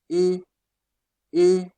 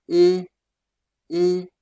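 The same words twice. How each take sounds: The two takes are said the same way.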